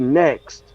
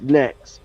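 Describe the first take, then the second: First: The word ends with a clear t sound. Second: The word ends without a t sound. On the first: "he don't say next" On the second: "he says next, N E C K S"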